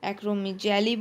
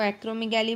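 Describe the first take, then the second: First: Acromegaly with a j sound, "acro-mi-jaily"; soft-g pronunciation. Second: Acromegaly with a hard g, "acro-mi-gaily"; hard-g pronunciation. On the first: (acromegaly को "एक्रोमिजैली" बोलें) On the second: (acromegaly को "एक्रोमिगैली" बोलें) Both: Shown as a demonstration. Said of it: "फिर से spelling तो same ही है".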